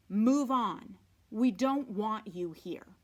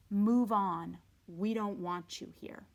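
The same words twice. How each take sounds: First: "Move on" pushed out louder, curt and cold; unwelcoming fence. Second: "Move on" louder, then "We don't want you here" falling away; unwelcoming fence. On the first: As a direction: warn strangers off the property. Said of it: "which clearly said". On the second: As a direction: reread the warning, fading at the end. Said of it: "that clearly said". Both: Acted.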